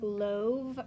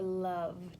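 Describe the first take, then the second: First: The vowel is a long 'oh' sound. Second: The vowel is a short 'uh' sound. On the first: The speaker calls it wrong. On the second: The speaker calls it right.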